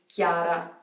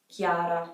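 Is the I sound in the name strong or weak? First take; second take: weak; weak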